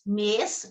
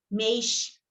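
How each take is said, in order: First: It has a plain vowel and a clear final s. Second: It has a diphthong and a hushing final s. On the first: "Mineiro fala paz, mês" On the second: "que é esse paz, mês"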